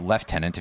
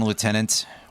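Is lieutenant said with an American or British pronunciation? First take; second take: British; American. First: Lieutenant is said with a British pronunciation. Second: Lieutenant is said with an American pronunciation.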